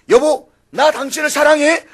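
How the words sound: It is said with strong, heartfelt feeling. "엄지를 실어가지고 말하는 것"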